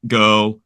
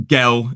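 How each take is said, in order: First: Said in the usual way. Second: Put-on "gel" with a short e, for girl; "gel", rhyming with bell; regional vowel. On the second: Shown as a demonstration. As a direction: say "gel" the Derbyshire way. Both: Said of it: "instead of".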